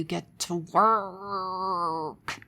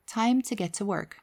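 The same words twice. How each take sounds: First: Hammed-up rage, hugely dragged-out "work"; mock enraged scream. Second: Calm, controlled inner voice, firm yet kindly; firm but kind. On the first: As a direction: stretch "work" into an exaggerated angry wail. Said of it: "screaming, rageful, angry voice that would say". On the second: Acted. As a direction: steer yourself kindly but firmly. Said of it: "very strong, very firm, but kind voice".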